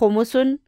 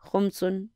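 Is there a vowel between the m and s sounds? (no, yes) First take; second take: yes; no. First: A short vowel is heard between m and s. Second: The m runs straight into s, no vowel. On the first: This is the form the word pattern calls for. The speaker calls it wrong. "होना चाहिए था खुमुसुन" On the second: This is the form people actually use because it sounds nicer. The speaker calls it right. "लेकिन हम कहते हैं खुमसुन"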